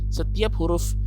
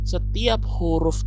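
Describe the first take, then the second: Both takes have the same delivery.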